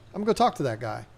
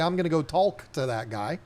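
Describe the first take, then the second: First: "Going to" is squeezed into "I'ma." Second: "Going to" is pronounced in full. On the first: The speaker calls it right. "You say, ... I M A, go talk to that guy" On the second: The speaker calls it wrong. "you don't say"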